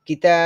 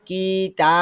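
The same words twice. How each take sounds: First: The first syllable is short and quick. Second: The first syllable is drawn out and separated. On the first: The speaker calls it right. "কিতা short sound যেগুলো যত শর্ট করা যায়" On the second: The speaker calls it wrong. "আমি যদি বলি কি-তা তাহলে কিন্তু অ রং হয়ে গিয়েছে"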